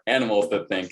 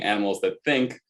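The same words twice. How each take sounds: First: The stress falls on the word animals. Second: The stress falls on the word think. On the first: Being biological creatures is what sets these thinkers apart. "placing the emphasis on the different words there" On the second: Thinking is what sets these creatures apart. "the sort of classical notion of animals that think puts the emphasis on, you know, like re- reason"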